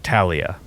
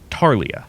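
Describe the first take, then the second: First: The first syllable has a short 'a' vowel. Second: The first syllable has an 'ar' vowel. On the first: "I would pronounce it" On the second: "which I suspect is a Australian way to say it"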